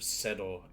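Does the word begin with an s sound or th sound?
s. It begins with an s sound.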